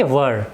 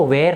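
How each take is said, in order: First: "were" said as a short "wuh" with a neutral vowel and no rolled r; "were" in the proper "wər" sound; correct pronunciation. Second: "were" said with an open e and a trilled r, like "wear"; "were" mispronounced as "wear"; wrong pronunciation. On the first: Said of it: "इसका real pronunciation है were". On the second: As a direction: say "were" the wrong way, as "wer" with a rolled r. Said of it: "हम इसको were नहीं बोलेंगे". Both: Shown as a demonstration.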